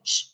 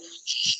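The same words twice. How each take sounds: First: The shh sound is short and clipped. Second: The shh sound is held long and continuous. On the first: The speaker calls it wrong. "Not just doing like a shh, shh, shh" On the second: The speaker calls it right. "continuously doing it for ten seconds like a shh"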